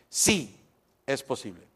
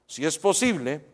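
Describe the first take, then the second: First: There is a pause after the first word. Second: The words run together without a pause. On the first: It affirms that it is indeed possible. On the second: It states a condition: if it is possible.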